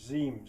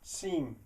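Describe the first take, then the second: First: The word starts with a buzzing Z sound. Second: The word starts with a hissing S sound. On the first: The speaker calls it wrong. "No, that's not the same as a Z" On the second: The speaker calls it right. "it's seem"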